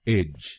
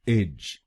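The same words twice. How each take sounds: First: The syllable is said with an 'ij' vowel. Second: The same.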